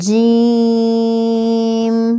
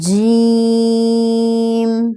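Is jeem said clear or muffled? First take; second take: clear; clear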